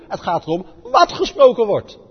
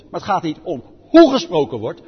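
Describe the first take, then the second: First: "wat" hit loud and higher with a falling end; "wat" punched, the rest falling away; stress on wat. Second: "hoe" hit loud and long, louder than the line around it; stress on hoe. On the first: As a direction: land firmly on "wat" as the answer. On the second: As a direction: lean hard on "hoe" as the wrong focus. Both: Real, not acted.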